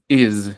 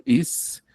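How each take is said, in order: First: "is" drawn out with a buzzing z at the end. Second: "Is" ending in a voiceless s. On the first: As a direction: voice the final s of "is" as z. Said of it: "Con Z es is". ("is" alargado con z sonora al final) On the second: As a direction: keep the end of "Is" a simple s, no buzz. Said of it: "Is es con S". ("Is" con s sorda al final) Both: Shown as a demonstration.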